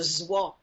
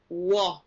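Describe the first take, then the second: First: The word begins with a z sound. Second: The word begins with a w sound. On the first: "some people will say that's a zwa" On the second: "The word goose is O I E, wa"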